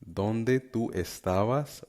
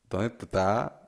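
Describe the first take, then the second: First: Every sound and syllable is fully pronounced. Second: S sounds and syllables are swallowed, clipped.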